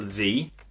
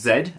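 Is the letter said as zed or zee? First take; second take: zee; zed. First: The letter is said as zee. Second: The letter is said as zed. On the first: The speaker calls it wrong. "and not Z" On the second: The speaker calls it right. "It is pronounced Zed"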